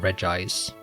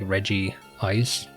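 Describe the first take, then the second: First: The parts run together into one short word. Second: It sounds like Reggie followed by Ice. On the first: It sounds more natural. "Just kind of sounds natural" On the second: It matches the names of the related creatures. "similar to how it's Reggie Steel and Reggie Rock"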